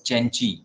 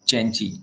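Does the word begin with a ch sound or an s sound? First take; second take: ch; ch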